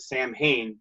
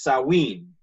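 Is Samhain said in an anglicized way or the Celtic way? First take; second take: anglicized; Celtic. First: It is said in an anglicized way. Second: It is said in the Celtic way. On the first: The speaker calls it wrong. "I've for years pronounced it" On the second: The speaker calls it right. "the Celts have their own pronunciations for everything, so it's"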